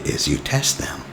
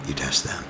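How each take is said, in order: First: Said in the usual way. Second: Soft whispered repeat of the tip; whispered echo. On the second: Shown as a demonstration. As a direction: drop to a whisper, as if sharing a secret. Repeats advice, then whispers it.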